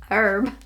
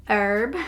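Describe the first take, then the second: The two takes are said the same way.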